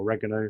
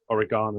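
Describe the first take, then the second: First: The word is said in an American way. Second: The word is said in a non-American way.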